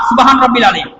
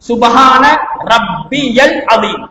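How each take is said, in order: First: It is said fast, with vowels clipped. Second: It is said slowly, every vowel clearly sounded. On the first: The speaker calls it wrong. "அவசரமாக ஓதுற நேரத்துல நாங்க ஓதுற எப்படி தெரியுமா?" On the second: The speaker calls it right. "நிதானமாக அந்த எழுத்துக்களை சரியாக நாங்க விளங்கி உச்சரிச்சு"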